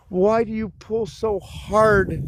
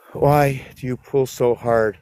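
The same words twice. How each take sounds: First: High, slow drawn-out whine; mock-pleading high whine to the dogs; whiny plea. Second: Said in the usual way. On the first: Scolding dogs pulling on leash.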